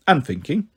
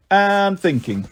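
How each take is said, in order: First: Said in the usual way. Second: Long, raised AND before thinking; drawn-out AND. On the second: A narrator's reading. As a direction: stretch "and" out to show endless thinking. Last of repeated thinking, drawn out.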